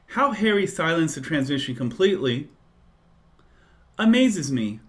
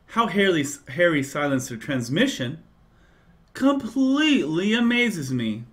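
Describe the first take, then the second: First: 'Completely' is phrased together with 'silenced the transmission'. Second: 'Completely' is phrased together with 'amazes me'.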